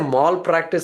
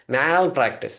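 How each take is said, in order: First: The first syllable sounds like 'mall'. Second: The first syllable sounds like 'meh'. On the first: It sounds like practicing something in a mall. The speaker calls it wrong. "Don't say malpractice insurance. Malpractice is what you practice in the mall" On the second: It means professional negligence. The speaker calls it right. "Meh, you have to say. Okay, you have to just do like this"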